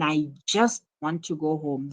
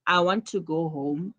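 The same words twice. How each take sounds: First: "just" picked out above the other words; stress on just. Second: Said in the usual way. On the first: Shown as a demonstration. Teacher contrasting two sentences for pupils, stress on "just". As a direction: put the weight on "just". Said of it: "the emphasis is on just". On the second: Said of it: "It's different from".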